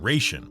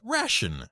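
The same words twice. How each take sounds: First: It uses the older, old-fashioned pronunciation. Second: It uses the modern, current pronunciation. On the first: This was the accepted form before the First World War. "that first pronunciation, ration, was actually the correct pronunciation until around World War One" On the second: This became the accepted form from the First World War on. "the American military decided it was pronounced ration"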